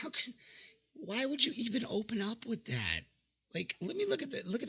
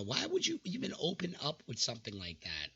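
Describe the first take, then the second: First: Breathy disbelieving whisper, high; half-laughing incredulous whisper. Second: Said in the usual way. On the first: Real, not acted. Reacting to a cringe opener.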